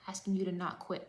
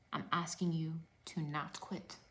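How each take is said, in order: First: Said in the usual way. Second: Hushed, breathy plea; a soft, intimate whisper to the viewers. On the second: Real, not acted. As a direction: lean in and whisper it to them. Pleading coach repeats key line.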